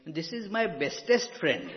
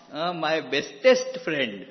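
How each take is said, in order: First: Mock childlike boast, louder, breaking into a laugh; quoting a child, laughing. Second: "bestest" hit hard and much louder; stress on bestest. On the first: The little one says it to me, laughing. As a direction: retell the kid's line while chuckling at it. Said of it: "next time he says to me". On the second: Retold or imitated. Repeating the child's word to the audience, stressing "bestest". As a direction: lean on "bestest", amused and emphatic.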